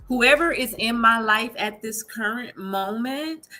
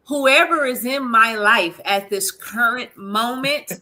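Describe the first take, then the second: First: It is said at normal volume. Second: It is said more loudly.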